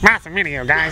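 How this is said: It is said in a silly, mocking put-on voice. The reader is jokingly mocking the comment. "that's the voice I use. So ... I'm saying"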